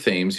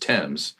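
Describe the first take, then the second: First: It is said the Connecticut way. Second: It is said the British way. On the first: This is the older local pronunciation. The speaker calls it right. "we pronounce it Thames here in Eastern Connecticut" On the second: This pronunciation honored the king. The speaker calls it wrong. "the way King George the First did, which is Thames"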